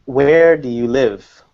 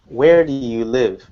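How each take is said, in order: First: Slow, with Where and live punched; stress on WHERE and LIVE. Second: Where and live stressed, a little faster. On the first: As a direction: lean on Where and live, rest light. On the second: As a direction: hit Where and live again, lighter. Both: Shown as a demonstration. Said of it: "we just emphasize the question words".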